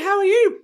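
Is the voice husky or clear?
clear. The voice is light and clear. This is after the patch takes effect. "takes away her husky voice"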